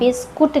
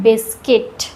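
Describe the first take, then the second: First: The second syllable sounds like kut. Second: The second syllable sounds like kit. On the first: The speaker calls it wrong. "बिस्कुट नहीं कहते हैं" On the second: The speaker calls it right. "यहाँ पर यू का pronunciation नहीं हो रहा है"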